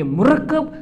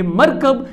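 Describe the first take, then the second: First: मुरक्कब as mu-RAK-kab; pronounced murakkab. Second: मरकब as MAR-kab; pronounced markab. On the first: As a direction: read मुरक्कब with u and a doubled k. (मुरक्कब को "मु-रक्-कब" पढ़ें) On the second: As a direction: read मरकब with a single k, no u. (मरकब को "मर-कब" पढ़ें) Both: Shown as a demonstration. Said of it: "जब हम पढ़ेंगे".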